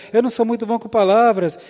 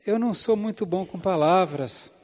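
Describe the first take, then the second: First: Whining Moses. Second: Said in the usual way. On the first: Acted. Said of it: "Êxodo quatro dez". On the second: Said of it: "Aí ele fala assim".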